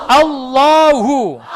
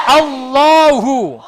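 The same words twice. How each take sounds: No difference in how they are said.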